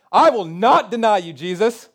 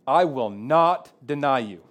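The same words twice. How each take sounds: First: Much higher and louder, all-out declaration; passionate vow. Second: Lightly voiced Peter, slow and sure; a hint of proud Peter insisting; Peter's boast. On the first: Retold or imitated. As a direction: shout the promise with passion. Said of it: "by saying something really passionately".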